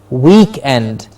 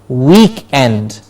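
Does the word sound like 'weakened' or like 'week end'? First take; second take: week end; week end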